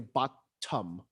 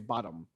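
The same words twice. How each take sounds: First: The middle t is said clearly and crisply. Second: The middle t is swallowed and barely heard. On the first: "We don't say bottom" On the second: "we say bottom"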